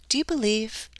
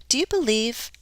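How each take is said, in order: No difference in how they are said.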